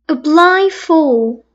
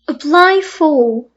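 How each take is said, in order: Both takes have the same delivery.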